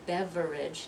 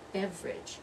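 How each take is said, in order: First: The word is said with three full syllables. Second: The word is said with only two syllables. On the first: The speaker calls it wrong. "not three syllables" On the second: The speaker calls it right. "only two syllables"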